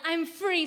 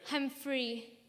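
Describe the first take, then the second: First: It is yelled very loudly. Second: It is said at a moderate volume.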